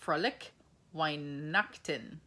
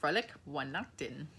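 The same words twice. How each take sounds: First: Frohlich Weihnachten slow, spelled out in German; German greeting. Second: Frohlich Weihnachten repeated smoothly in German; German greeting. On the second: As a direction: say Frohlich Weihnachten again at normal speed. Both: Shown as a demonstration. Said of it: "they say Merry Christmas as".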